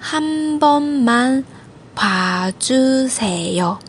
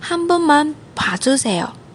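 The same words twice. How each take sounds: First: It is said at a slower pace. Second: It is said at a faster pace.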